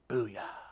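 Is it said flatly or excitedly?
flatly. It is said flatly, without energy.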